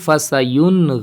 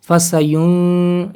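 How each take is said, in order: First: The n sound is clear with brief nasality. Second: The n sound is nasalized and held long. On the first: The speaker calls it right. "नून जाहिर भी हो गया, नाक में आवाज़ भी ज़्यादा देर नहीं रही" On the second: The speaker calls it wrong. "इस तरह नहीं पढ़ेंगे इसको"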